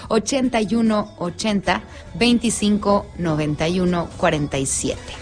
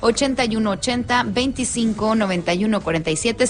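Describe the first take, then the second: First: The number is said slowly. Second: The number is said at normal speed.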